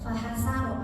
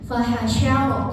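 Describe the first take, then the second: First: The middle consonant is a plain s sound. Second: The middle consonant is an sh sound. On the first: The speaker calls it wrong. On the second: The speaker calls it right.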